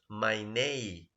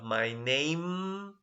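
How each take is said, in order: First: A sound in the words is dropped. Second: Every sound in the words is fully pronounced. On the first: "that is an example of elision" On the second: "Instead of my name"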